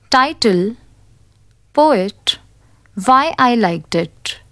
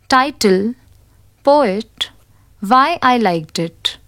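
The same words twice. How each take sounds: The two takes are said the same way.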